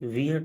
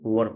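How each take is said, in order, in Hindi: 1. स्वर 'weer' में 'ee' जैसा सुनाई देता है। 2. स्वर 'wur' में छोटे 'ur' जैसा सुनाई देता है। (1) "इसको वियर नहीं" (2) "इसको वर पढ़ा जाता है"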